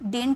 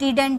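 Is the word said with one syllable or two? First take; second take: one; two. First: The word is squeezed into one syllable. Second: The word is said in two full syllables. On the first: "इसे हम डिंट भी बोलते हैं" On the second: "या तो आप डिडंट use कीजिए"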